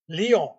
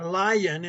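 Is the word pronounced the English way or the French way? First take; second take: French; English. First: It is said with a French pronunciation. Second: It is said with an English pronunciation. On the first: "they pronounced that word Lion" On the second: "we started saying lion instead of Lion"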